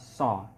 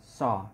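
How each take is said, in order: First: The s-sound is made against the teeth. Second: The same.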